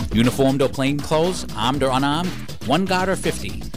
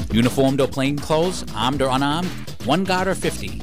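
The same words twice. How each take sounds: No difference in how they are said.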